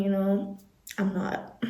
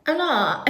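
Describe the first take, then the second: First: A quick breathy whisper to herself; hushed confession, barely voiced; whispered aside. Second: Said in the usual way. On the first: Real, not acted. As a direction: mutter it under your breath like a secret. Whispered aside, then said aloud.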